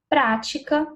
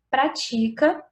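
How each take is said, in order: First: The stress is on the first syllable. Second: The stress is on the second syllable. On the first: It names a practice, a noun. The speaker calls it wrong. "colocando o acento ali de forma inadequada no primeiro A da palavra prática" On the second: It says something is practiced, a verb. The speaker calls it right. "o que o autor dessa frase quis dizer era"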